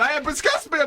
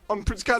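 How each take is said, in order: First: It is said in an exaggerated foreign accent. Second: It is said in a plain British accent. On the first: "it was generic foreign bloke" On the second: "this time he's British"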